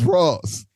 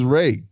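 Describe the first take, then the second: First: The name ends with an S sound. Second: The name ends in a vowel, no final S. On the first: This is how the name's owner says it. The speaker calls it right. "No, it's Ross" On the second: This is how the speaker first assumed it was said. The speaker calls it wrong. "of course I thought it was Ray"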